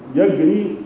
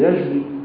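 First: The consonant is a hard g sound. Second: The consonant is a soft j sound. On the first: It is colloquial speech. "موجود في العامية" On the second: It is standard formal Arabic. "لكن في الفصحى"

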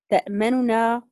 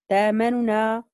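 First: The hamza is pronounced fully as a glottal stop. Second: The hamza is replaced by a long vowel. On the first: "نقرأ هكذا بوجه الاختلاس" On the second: "للإمام ورش. إمام ورش يقرأ بإبدال الهمزة"

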